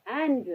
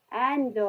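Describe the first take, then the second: First: Said in the usual way. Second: "and" broken into "en" and "do"; sounded out. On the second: Shown as a demonstration. Teacher showing E's sound in end, split "and". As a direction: say "and" as two separate sounds. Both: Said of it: "ए की sound आ रही है".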